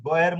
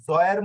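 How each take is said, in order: First: "গয়ের" opening on a hard g. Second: "জয়ের" opening on a buzzing z-like j. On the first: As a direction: start "গয়ের" with a firm hard g. ("গয়ের" শুরুতে শক্ত গ ধ্বনি) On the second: ("জয়ের" শুরুতে নরম জ ধ্বনি) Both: Shown as a demonstration. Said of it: "জ এবং গ দুই ধরনের হবে".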